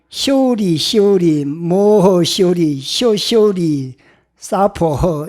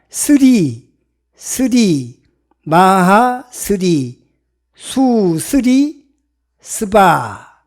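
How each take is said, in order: First: It is read with Chinese-style sounds like shori and sapo. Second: It is read with Sanskrit-style sounds like sri and svaha. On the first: "중국식으로 이제 저기 발음을 하면" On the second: "산스크리트 원음으로 읽어보니까"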